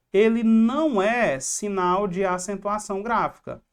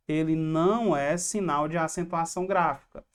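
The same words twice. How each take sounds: First: "não" punched louder; emphatic NÃO. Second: Said in the usual way. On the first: Real, not acted. Teacher warning students about the tilde, emphatic on "não". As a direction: drive home the rule, hitting "não" hard. Teacher drives home a key rule.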